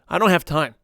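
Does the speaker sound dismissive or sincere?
dismissive. It sounds dismissive and brushing off. The person is just refusing. "the second one is just the person just blowing you off"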